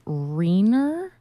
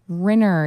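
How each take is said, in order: First: The first vowel rhymes with wiener. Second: The first vowel rhymes with winner. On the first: The speaker calls it wrong. "some of my students would call me Miss Renner" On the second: The speaker calls it right. "It rhymes with winner, not with wiener"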